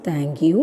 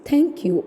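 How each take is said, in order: First: "thank you" with a weak first sound; low, unforced TH in "thank you"; unstressed th. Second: "thank you" with a forceful TH onset; higher, punched start on "thank you"; stressed th. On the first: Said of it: "It's not thank you". (th ഊന്നാതെ പറഞ്ഞ thank you) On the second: (ഊന്നിപ്പറഞ്ഞ th ഉള്ള thank you) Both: Shown as a demonstration.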